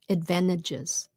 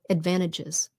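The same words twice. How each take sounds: No difference in how they are said.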